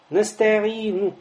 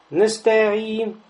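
Both takes have the same delivery.

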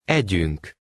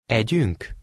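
First: It has statement intonation. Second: It has question intonation.

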